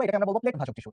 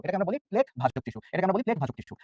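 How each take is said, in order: First: Said in the usual way. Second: Very slow, word by word, so students can note plate ভাজক tissue; slow repeat. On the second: Shown as a demonstration. Teacher to students, repeating the term very slowly.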